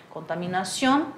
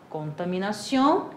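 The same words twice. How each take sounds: No difference in how they are said.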